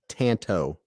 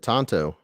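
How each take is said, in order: First: The first vowel sounds like the one in 'Tanto'. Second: The first vowel sounds like the one in 'Tonto'. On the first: The speaker calls it right. "In the Tanto" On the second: The speaker calls it wrong. "I always say that wrong"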